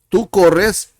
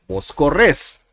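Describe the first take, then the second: First: "corres" stressed on CO; stress on first syllable. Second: "corres" stressed on RRES; stress on last syllable. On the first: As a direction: land the beat on the start of "corres", CO-rres. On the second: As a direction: land the beat on the end of "corres", co-RRES. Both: Shown as a demonstration. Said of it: "it changes".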